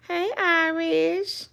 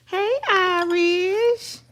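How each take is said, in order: First: High, slow sing-song greeting. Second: Even higher, very slow coo. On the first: Greeting her dog Irish in slow, high sing-song baby talk. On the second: Calling her dog Irish again, in an even higher, slower coo. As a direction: stretch out Irish in a high lilting coo. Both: Real, not acted.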